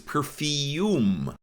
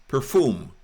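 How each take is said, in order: First: A y sound comes before the u. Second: The u is said with no y sound. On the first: This is the American way. "U S pronunciation of perfume is perfume" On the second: This is the way outside America. "Outside the U S, perfume, pronounced as spelled"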